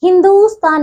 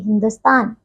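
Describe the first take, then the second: First: हिंदुस्तान with a long, raised "doo"; mispronunciation. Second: हिंदुस्तान with a short "du", low and quick to the end; correct pronunciation. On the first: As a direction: stretch the "du" of हिंदुस्तान. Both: Shown as a demonstration. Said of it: "हिंदुस्तान नहीं".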